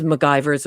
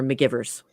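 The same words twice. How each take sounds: First: McGivers said muh-GUY-verz; long-i pronunciation. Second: McGivers said muh-GIV-erz; short-i pronunciation. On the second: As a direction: say McGivers to rhyme with "givers". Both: Shown as a demonstration. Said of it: "it's said both ways".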